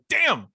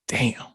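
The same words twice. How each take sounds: First: It sounds pained and annoyed. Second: It sounds impressed and admiring.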